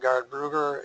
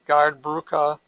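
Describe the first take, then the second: First: The consonant near the end is softened. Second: The consonant near the end is hard. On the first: "can become"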